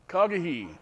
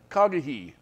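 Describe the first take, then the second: First: The name begins with a throaty K-like sound. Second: The same.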